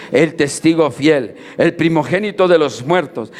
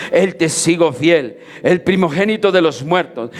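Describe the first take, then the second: Both takes have the same delivery.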